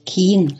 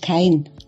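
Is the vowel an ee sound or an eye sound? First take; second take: ee sound; eye sound. First: The vowel is a long ee sound. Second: The vowel is an eye sound. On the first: This is the local dialect form. "kein statt" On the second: This is the standard form. "statt kein"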